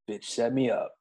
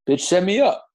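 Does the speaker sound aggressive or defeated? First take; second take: defeated; aggressive. First: It is said in a defeated tone. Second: It is said in an aggressive tone.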